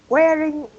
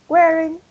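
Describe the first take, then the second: No difference in how they are said.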